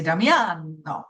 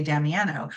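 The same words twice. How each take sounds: First: Damiano with open Italian a's, dah-mee-AH-no; Italian Damiano, broad ah vowels; Italian pronunciation. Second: Damiano with flat American vowels, dam-ee-AN-o; anglicized Damiano, short a sounds; American pronunciation. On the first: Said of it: "whereas in Italian". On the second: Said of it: "if you wanted to say my last name in American". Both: Shown as a demonstration.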